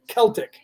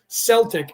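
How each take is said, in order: First: The word begins with a K sound. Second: The word begins with an S sound. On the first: "as opposed to the word Celtic" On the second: "the soft C is a S sound, like the word Celtic"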